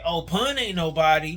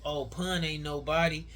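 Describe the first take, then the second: First: Loud, overemphasized retelling with a big swoop on "Pun"; emphatic mocking quote. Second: Said in the usual way. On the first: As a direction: punch "Oh, Pun" loudly, exaggerating the emphasis. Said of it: "you put an emphasis on it". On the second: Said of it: "when Smack say".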